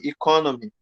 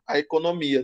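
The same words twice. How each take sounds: First: "economy" in English with an ih at the start, ih-KON-uh-mee. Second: "economia" in Portuguese with an open e at the start, e-co-no-MI-a. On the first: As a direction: show the English "economy" against the Portuguese word. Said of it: "no inglês é economy". ("economy" em inglês, começando com som de i) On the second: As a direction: contrast it with the English "economy". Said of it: "Mas a nossa é economia". ("economia" em português, com e aberto no início) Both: Shown as a demonstration.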